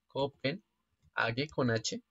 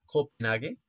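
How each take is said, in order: First: Copenhague con H slow, stress on con; spelling it out. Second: Said in the usual way. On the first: Shown as a demonstration. Quiz player spelling the capital for viewers, slow stress on con. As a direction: slowly stress con, to point out the H.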